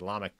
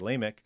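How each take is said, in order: First: The name is said with a Hebrew pronunciation. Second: The name is said with a common English pronunciation. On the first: "I'm used to my Hebrew in my head, so I say Lamech" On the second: "a lot of people say Lamech"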